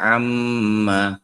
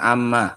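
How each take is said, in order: First: The double m is held with a nasal hum. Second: The double m is short with no nasal hum. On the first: The speaker calls it right. "Dibaca dengungnya berapa? Ini dua. Dua harokat" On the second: The speaker calls it wrong. "jangan amma, amma itu jadi bahasa Indonesia nih nggak ada dengungnya"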